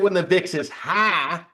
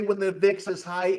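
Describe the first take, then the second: First: It is said in a Southern American accent. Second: It is said in a plain accent.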